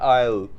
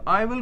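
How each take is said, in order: First: The words merge into one short syllable. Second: Both words are said fully and separately. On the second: "आई विल को हम बोलते हैं"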